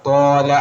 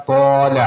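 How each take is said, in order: No difference in how they are said.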